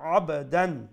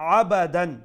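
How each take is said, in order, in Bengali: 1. b-টা একটু প্রতিধ্বনির মতো হালকা ঝাঁকুনি দিয়ে শেষ হয়। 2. b-এর শব্দের পরে একটা পূর্ণ স্বরধ্বনি আসে। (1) "আব বারফে কালকালা করমু" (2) "বা সাউন্ড হইতো না, আবা হইতো না"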